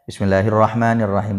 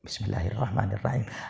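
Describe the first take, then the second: First: The phrase is recited aloud, clearly voiced. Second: The phrase is recited quietly, under the breath. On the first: The basmala is treated as part of the Fatiha. "maka harus dibaca jahar" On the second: The basmala is treated as not part of the Fatiha. "dibaca sir"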